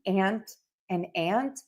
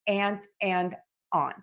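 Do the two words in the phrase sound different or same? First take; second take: same; different. First: Both words are pronounced identically. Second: The second word has a different vowel. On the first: "are these words pronounced the same" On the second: "or are they pronounced different"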